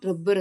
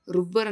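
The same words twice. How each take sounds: First: ರಬ್ಬರ್ with "uh" in the first syllable; correct short "uh". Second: ರುಬ್ಬರ್ with "oo" in the first syllable; mistaken "u" vowel. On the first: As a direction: model ರಬ್ಬರ್ as "rub-bar". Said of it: "ರಬ್ಬರ್ ಅಂತೀವಿ". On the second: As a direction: show the error ರುಬ್ಬರ್, "roob-bar". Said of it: "ರುಬ್ಬರ್ ಅನ್ನೋಕ್ಕಾಗಲ್ಲ". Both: Shown as a demonstration.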